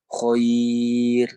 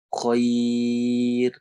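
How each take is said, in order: No difference in how they are said.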